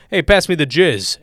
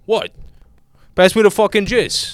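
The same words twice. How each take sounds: First: Mock jokey dinner request; joking dad. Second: Higher, louder mock-insistent dad; doubling down seriously. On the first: Imagining dad saying it to get laughs, playfully. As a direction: toss it out as a gag. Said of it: "and then everyone laughs and he went". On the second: Imitating dad who refuses the joke, insistent. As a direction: demand it as if nothing's funny. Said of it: "him being serious about it".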